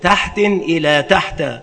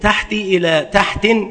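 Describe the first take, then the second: First: First word has tanwin, second ends in fatha. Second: First word ends in kasra, second has tanwin. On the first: "بتنوين الأول وفتح الثاني" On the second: "بكسر الأول وتنوين الثاني"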